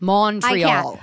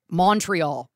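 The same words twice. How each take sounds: First: It is said the local way. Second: It is said the American way. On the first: The speaker calls it right. "It's Montreal" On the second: The speaker calls it wrong. "Americans, they say Montreal"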